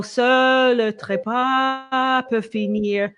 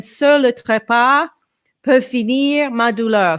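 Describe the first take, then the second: First: Seul le trépas peut finir drawn out slowly in one connected breath. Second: Seul le trépas, pause, peut finir ma douleur split into sung phrases; phrased in breaks. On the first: Coach showing singer how to connect the phrase. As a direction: stretch it, one breath, no break. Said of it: "I would breathe, uh, and connect". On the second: Coach modeling the phrase split for singer. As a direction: split the line into meaningful phrases. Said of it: "that would be one phrase". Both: Shown as a demonstration.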